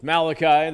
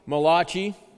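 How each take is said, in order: First: The name is said with a plain English pronunciation. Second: The name is said with an Italian-style pronunciation. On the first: The speaker calls it right. "No, he's Malachi" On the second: The speaker calls it wrong. "or pronounced the Italian way"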